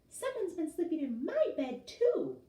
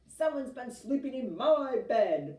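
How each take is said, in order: First: A crying Mama Bear voice, middle pitch. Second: A loud, deep bellowing Papa Bear voice.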